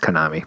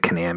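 First: The name is said in its original, non-American way. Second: The name is said with an American pronunciation. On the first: "No, it's Konami" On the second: "I say Konami because I'm American"

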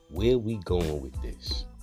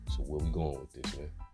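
First: It is said slowly. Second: It is said at a normal, quicker pace.

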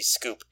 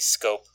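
First: It starts with sk and has an oo vowel. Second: It starts with sk and has an oh vowel. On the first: "nor should it be scoop" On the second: "should not be scope"

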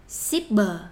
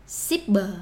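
No difference in how they are said.

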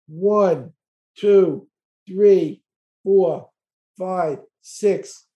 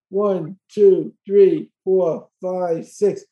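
First: It is counted at a moderate pace. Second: It is counted a little faster.

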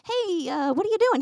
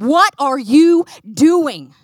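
First: It is said in a light, gentle voice. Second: It is said in a loud, booming voice.

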